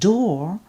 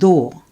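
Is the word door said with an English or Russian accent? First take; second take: English; Russian. First: It is said with an English D sound. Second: It is said with a Russian dental D sound. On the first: "the English word door" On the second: "A Russian person would pronounce"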